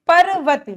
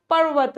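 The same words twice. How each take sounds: First: "पर्वत" broken as pa-ra-vat; wrong split r. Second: Said in the usual way. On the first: Shown as a demonstration. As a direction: add a vowel after r in "पर्वत". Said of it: "पर्वत नहीं होता". ("पर्वत" को परवत जैसा तोड़कर) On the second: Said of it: "र लगता है".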